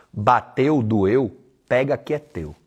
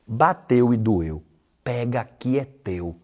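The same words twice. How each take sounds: First: Said in the usual way. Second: Slow, each word set down for emphasis; slow, weighty repeat. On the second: Shown as a demonstration. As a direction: drive the maxim home slowly.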